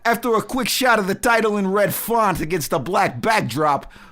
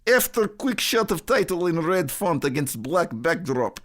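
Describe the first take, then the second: First: It is read in a put-on Chicago accent. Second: It is read in a put-on Russian accent. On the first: "I got like a Chicago" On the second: "I have a really bad Russian accent, so let's try that one"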